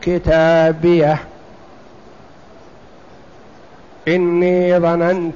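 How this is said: There is a deliberate pause after the first word. "أن يتعمد الوقف"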